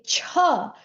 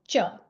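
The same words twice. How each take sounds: First: The ch is said with a puff of air. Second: The ch is said with no puff of air. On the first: "there's an extra H sound" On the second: "There is no air coming out"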